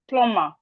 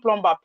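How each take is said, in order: First: The B sound is silent after the M. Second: The B sound is pronounced after the M. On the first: The speaker calls it right. "The B is silent, so it's plumber" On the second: The speaker calls it wrong. "It's not plumber, please"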